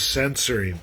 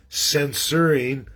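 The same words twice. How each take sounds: First: Censoring run together in the usual accent; accent-merged pronunciation. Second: Censoring drawn out to mark a separate word; careful distinct pronunciation. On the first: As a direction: say censoring quicker and less marked. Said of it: "but my accent". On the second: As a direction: say censoring slowly, syllable by syllable. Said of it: "They're two different words". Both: Shown as a demonstration.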